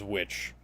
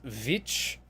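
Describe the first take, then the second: First: The word begins with a W sound. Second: The word begins with a V sound. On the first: The speaker calls it wrong. "was pronounced as" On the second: The speaker calls it right. "what should have been pronounced as"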